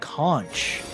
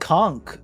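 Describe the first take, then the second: First: The word is said with a soft ending sound. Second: The word is said with a hard ending sound. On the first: "Conch is the the British one" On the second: "the hard uh, H is uh, the U S like uh, or like North American pronunciation"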